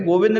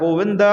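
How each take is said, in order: First: The name ends on the consonant with no vowel. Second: The name ends with a long a vowel. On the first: The speaker calls it wrong. "गोविंद नहीं होता है" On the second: The speaker calls it right. "गोविंदा होता है"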